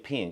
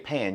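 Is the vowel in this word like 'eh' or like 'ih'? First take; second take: ih; eh. First: The vowel is a closed 'ih' sound. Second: The vowel is an open 'eh' sound. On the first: "you say pin" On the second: "You don't say pan"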